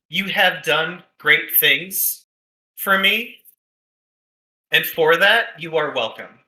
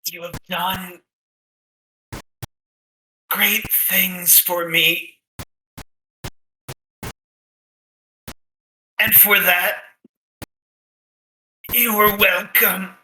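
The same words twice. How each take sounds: First: It is spoken in the speaker's ordinary natural voice. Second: It is spoken in an altered, put-on character voice. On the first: The message is repeated so it is easy to understand. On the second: A mysterious spirit is speaking through someone.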